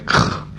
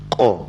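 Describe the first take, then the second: First: The sound is airy, with air escaping. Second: The sound is clean, with no escaping air. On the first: The speaker calls it wrong. "Kalau terus sentuhnya dia akan bunyi angin" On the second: The speaker calls it right. "pangkal lidah ni, tekan anak tengkak. Macam mana bunyi?"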